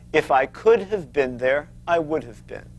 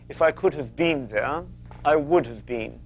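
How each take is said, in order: First: It is said in an American accent. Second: It is said in a British accent.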